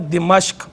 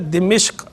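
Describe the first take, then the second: First: The first vowel is i, the second a. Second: The first and second vowels are both i. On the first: "मीम पे ज़बर के साथ बनेगा दिमश्क" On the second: "मीम के नीचे ज़ेर के साथ बनेगा दिमिश्क"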